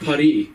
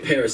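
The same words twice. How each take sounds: First: Paris is said with a French pronunciation. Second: Paris is said with an English pronunciation. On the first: The speaker calls it right. "a French person ... they're like, oh, it's Paris" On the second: The speaker calls it wrong. "I'm in French and I say Paris"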